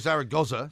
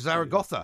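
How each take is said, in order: First: It is said with an English pronunciation. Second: It is said with a Spanish pronunciation. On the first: "you don't say Zaragoza" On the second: "in the same way that you say Barcelona"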